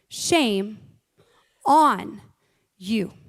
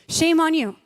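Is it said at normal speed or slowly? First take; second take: slowly; normal speed. First: It is said slowly and deliberately. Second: It is said at a normal speed.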